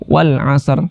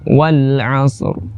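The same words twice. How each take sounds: First: The S sound is light and thin. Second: The S sound is heavy and thick. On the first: The speaker calls it wrong. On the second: The speaker calls it right.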